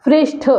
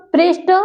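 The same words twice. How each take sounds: First: पृष्ठ ending in aspirated ठ; ठ form. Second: पृष्ठ ending in plain ट, higher; higher पृष्ठ with bare ट; ट form. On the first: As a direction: say पृष्ठ as prishṭh. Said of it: "और कहाँ पे ठा". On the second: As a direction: say पृष्ठ as prishṭ, no puff. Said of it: "कहाँ पे टा लगना है". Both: Shown as a demonstration.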